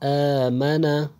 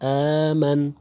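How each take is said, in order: First: The word ends with a short final vowel. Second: The word stops on the final consonant. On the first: The word is read in continuous reading. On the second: The reader stops at the word.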